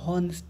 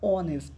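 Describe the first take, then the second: First: The word begins with an h sound. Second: The word begins with a vowel sound. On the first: The speaker calls it wrong. "হ আছে বলে হনেস্ট না" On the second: The speaker calls it right. "এইচটা উজ্জ হবে"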